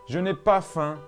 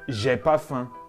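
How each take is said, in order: First: The negation ne is pronounced before ai. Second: The negation ne is left out before ai.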